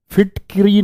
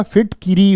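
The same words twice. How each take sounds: First: फिटकरी with k run straight into r; wrong short form. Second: फिटकिरी with an i after k; correct full form. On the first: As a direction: drop the vowel between k and r in फिटकरी. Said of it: "फिटकरी नहीं होता". (फिटकरी में क और र मिलाकर बोलें) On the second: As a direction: sound fit-ki-ree in फिटकिरी. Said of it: "क्या होता है?". (फिटकिरी में कि साफ़ बोलें) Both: Shown as a demonstration.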